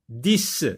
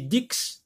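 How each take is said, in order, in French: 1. Le mot se termine par un son s. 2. Le mot se termine par un son ks. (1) "j'entends le son S" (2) "Est-ce que j'ai, j'ai dit dix? Non"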